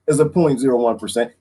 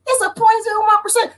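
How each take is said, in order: First: Said in the usual way. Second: High alarm. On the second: Shown as a demonstration. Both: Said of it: "repeated in character voice".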